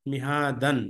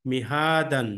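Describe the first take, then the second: No difference in how they are said.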